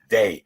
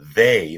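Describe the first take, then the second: First: The word is said with a New York accent. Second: The word is said in a standard way. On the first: "In New York, they often say ... they go they" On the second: "instead of they"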